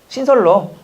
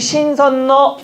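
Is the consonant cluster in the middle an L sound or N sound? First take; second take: L sound; N sound. First: The middle consonants are pronounced as l sounds. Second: The middle consonants are pronounced as n sounds. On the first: The speaker calls it right. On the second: The speaker calls it wrong. "신선노입니까?"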